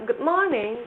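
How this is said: A British accent with the R sound dropped. "di Inggris itu biasanya kalau ngomong"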